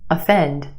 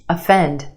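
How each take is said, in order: No difference in how they are said.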